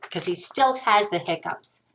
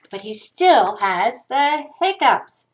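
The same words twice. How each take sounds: First: Said in the usual way. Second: "still" punched and stretched, slow pace; stress on still. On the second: A narrator's reading. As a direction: draw out "still", then slowly land "hiccups". Exasperated refrain, drawn out.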